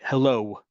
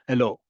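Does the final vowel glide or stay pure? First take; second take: glide; pure. First: The final vowel glides into a W sound. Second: The final vowel stays short and pure. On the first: It sounds like an American English speaker. "What's that last sound in the word hello? That's a W" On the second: It sounds like a local Hebrew speaker. "all those vowels get shortened in the sense of we're not adding any extra sounds"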